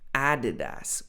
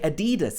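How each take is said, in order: First: The stress falls on the first syllable. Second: The stress falls on a later syllable. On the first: The speaker calls it right. "really this should be Adidas with the stress on the A" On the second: The speaker calls it wrong. "Some people say Adidas"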